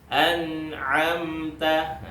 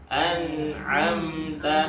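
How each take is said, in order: The two takes are said the same way.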